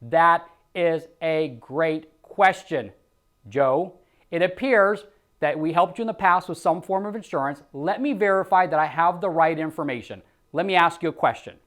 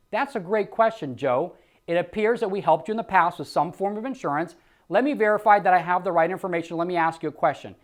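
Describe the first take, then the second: First: Calm, friendly agent reply; easy reassuring sales-rep read; sales script demo. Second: Smooth, friendly rep answer; calm phone-agent demo; sales script demo. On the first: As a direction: model the rep's smooth answer. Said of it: "we want to say". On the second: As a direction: deflect gently and move on. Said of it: "let me start that again". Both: Shown as a demonstration.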